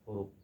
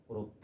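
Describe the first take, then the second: Both takes have the same delivery.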